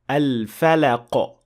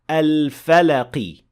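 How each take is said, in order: First: The word ends with no vowel at all. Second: The word ends with a full i vowel. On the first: "with a complete sukun" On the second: "this is a full kasra"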